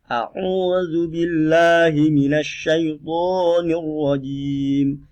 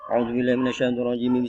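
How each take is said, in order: First: The phrase is recited slowly and deliberately. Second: The phrase is recited very quickly. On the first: "cara membaca ini pelan" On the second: "Itu contohnya hadar ya. Cepat sekali"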